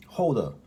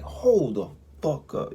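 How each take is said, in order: First: Surprised. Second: Loud, slow and high; shocked disbelief. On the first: Real, not acted. Repeats in telling. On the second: Retold or imitated. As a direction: stretch it out in disbelief. Sees limping man far away.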